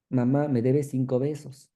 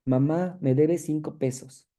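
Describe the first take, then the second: First: "besos" said with a b in place of the p of pesos; a patient's slip turning pesos into "besos"; paraphasia demo. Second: Said in the usual way. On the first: Shown as a demonstration. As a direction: swap the p in pesos for a b, saying "besos". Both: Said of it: "la sustitución de un fonema por otro".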